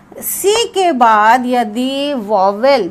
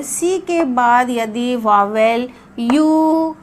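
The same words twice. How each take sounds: First: Slow dictation. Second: Teacher spells out each word slowly for the class; slow it right down so pupils can follow; slow, careful dictation. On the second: Teacher to class, slow careful dictation. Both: Shown as a demonstration. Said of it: "ध्यान से सुनिए".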